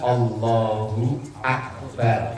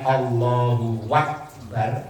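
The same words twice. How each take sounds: First: Akbar begins with a glottal stop. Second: Akbar begins with a w sound. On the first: The speaker calls it right. "Yang benar kan Allahu Akbar alif" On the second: The speaker calls it wrong. "diganti wawu"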